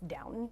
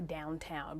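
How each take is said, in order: First: The second syllable is a short, weak 'tun'. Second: The second syllable rhymes with 'brown'. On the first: "the way that I hear people pronounce it" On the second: "I always want to say Downtown"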